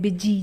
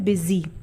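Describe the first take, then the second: First: The middle consonant is a J sound. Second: The middle consonant is a Z sound. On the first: The speaker calls it wrong. "बहुत से लोग इसे बिजी पढ़ते हैं, बिजी, जो कि गलत है।" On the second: The speaker calls it right. "ये ज पे जब बिंदी आ जाती है ना तो ये ज बन जाता है, बन जाता है बिजी।"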